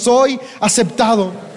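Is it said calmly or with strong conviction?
calmly. It is said calmly, without strong conviction.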